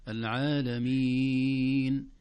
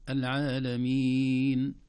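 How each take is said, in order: First: العالمين held six beats, very slow and louder; العالمين held its longest; long lengthening. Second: العالمين held four beats, slow and louder; العالمين held moderately long; medium lengthening. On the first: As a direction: draw out العالمين as long as possible. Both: Shown as a demonstration. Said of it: "اثنين وأربع وست حركات".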